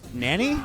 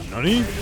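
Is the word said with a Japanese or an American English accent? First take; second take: American English; Japanese. First: It is said with an American English pronunciation. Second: It is said with a Japanese pronunciation. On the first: "Just bad English, Japanese voices" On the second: "Guile's whiff throw is like"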